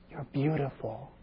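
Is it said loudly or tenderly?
tenderly. It is said softly, in a low tender voice. The speaker calls it right. "you lower your voice, the tone changes"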